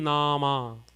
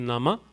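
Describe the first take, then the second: First: Both vowels are long. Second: Both vowels are short. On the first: "If both the A's had a bar, it would have been" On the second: "If none of the A's had a bar, it would be"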